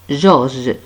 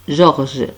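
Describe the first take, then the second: The two takes are said the same way.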